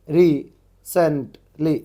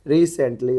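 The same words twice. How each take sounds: First: recently very slow and loud, in separate syllables; broken into syllables. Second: Said in the usual way. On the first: Shown as a demonstration. Teacher decodes chat-like spelling, recently syllable by syllable. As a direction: punch out each syllable of recently. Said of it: "जैसे कि अपन WhatsApp में chatting करते". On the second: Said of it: "recently हो गया ये".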